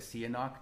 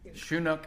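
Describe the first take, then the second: First: The name is said as three-syllable Sihanouk. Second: The name is said as two-syllable Chinook. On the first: This is an acceptable alternative pronunciation. "if you want to say Sihanouk, nobody's gonna fault you" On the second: This is the real pronunciation. "is what it really is"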